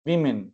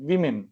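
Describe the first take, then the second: Both takes have the same delivery.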